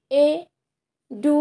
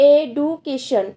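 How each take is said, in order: First: education very slowly as এ, ডু, কে, শন; broken into syllables. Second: Said in the usual way. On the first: Shown as a demonstration. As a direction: break education apart with long pauses. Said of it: "ভেঙে ভেঙে উচ্চারণ করতে হচ্ছে". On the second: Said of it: "যেমন".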